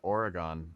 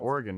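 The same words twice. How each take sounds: First: It is said the way East Coasters say it. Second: It is said the way locals say it. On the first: The speaker calls it wrong. "as many East Coasters say" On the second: The speaker calls it right. "you said it correctly too"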